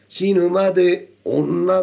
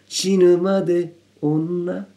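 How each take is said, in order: First: The phrase is delivered in a harsh, scary way. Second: The phrase is delivered in a soft, gentle way. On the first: The speaker calls it wrong. "死ぬまで女だとちょっと怖いですよね" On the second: The speaker calls it right. "そのためをきちっとすることによって柔らかさを出していける"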